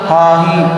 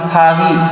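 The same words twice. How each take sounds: Both takes have the same delivery.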